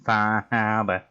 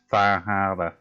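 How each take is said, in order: First: Very slow, drawn-out Boston accent, Harbor as Hahbah. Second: Slow Boston accent, dropped R in Harbor. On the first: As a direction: stretch it out in a thick Boston accent. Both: Shown as a demonstration. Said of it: "I can only say one thing with a, like, a Boston accent".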